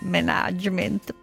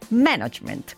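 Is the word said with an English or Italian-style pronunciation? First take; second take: Italian-style; English. First: It is pronounced in an Italian-style way. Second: It is pronounced firmly in an English way. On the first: The speaker calls it wrong. "Non management, please" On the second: The speaker calls it right. "così, decisi"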